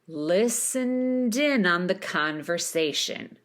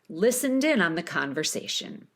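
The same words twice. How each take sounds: First: The phrase is said slowly. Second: The phrase is said quickly.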